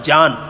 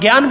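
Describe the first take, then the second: First: The word begins with a 'j' sound. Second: The word begins with a 'gy' sound. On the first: This is the classical grammatical pronunciation. The speaker calls it right. "व्याकरण शास्त्र में इसका उच्चारण ज होता है" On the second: This is how people commonly say it. The speaker calls it wrong. "जिसे अपन ज्ञान बोलते हैं ना, वास्तव में ज्ञान नहीं होता है"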